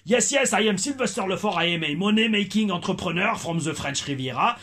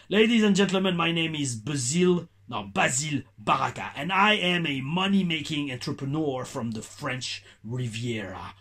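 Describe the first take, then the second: First: Put-on English with a light, toned-down French accent; a bit louder ring announcer brag with only a trace of French accent; Sylvester Lefort, toned-down French accent. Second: Put-on slow English with a thick French accent; Basile Baraka, heavy French accent. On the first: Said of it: "ralenti l'accent français que j'avais en tant que Sylvester Lefort". (anglais avec un léger accent français atténué)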